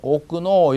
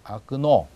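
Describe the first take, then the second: First: The first vowel is a full 'o' sound. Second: The first vowel is a reduced 'a' sound. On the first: The speaker calls it wrong. "오끄노라고 하지 않고" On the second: The speaker calls it right. "그냥 아끄노 이렇게 합니다"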